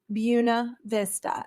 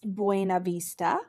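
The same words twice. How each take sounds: First: The name is said the local Georgia way. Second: The name is said as its spelling suggests. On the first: The speaker calls it right. "here in Marion County in Southwest Georgia, it is pronounced" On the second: The speaker calls it wrong. "It looks like it should be pronounced"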